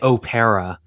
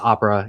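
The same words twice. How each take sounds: First: The word is said with an Italian pronunciation. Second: The word is said with an English pronunciation.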